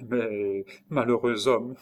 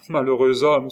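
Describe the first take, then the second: First: Slow, hesitant first warning; dawning alarm. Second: Loud, raised exclamation; alarmed cry. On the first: Nurse realising his danger, slow dawning alarm. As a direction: begin slowly as the fear sinks in. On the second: Nurse crying out at his danger, loud alarm. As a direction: cry out the warning urgently. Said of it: "s'écria-t-elle". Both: A narrator's reading.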